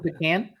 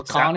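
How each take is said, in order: First: Pecan as "PEE-can"; long "ee", then "can" as in tin can, for pecan; pronunciation variant. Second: Pecan as "puh-KAHN"; pronunciation variant. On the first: Host comparing two readings, pecan said "PEE-can". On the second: Host comparing two readings, pecan said "puh-KAHN". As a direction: stress the broad "ah" ending of pecan. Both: Shown as a demonstration. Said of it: "Is it like pecan and pecan?".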